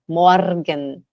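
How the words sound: The R is pronounced strongly, pulled and rolled. This is how it is said in Switzerland. "você vai ouvir os suíços falarem morgen"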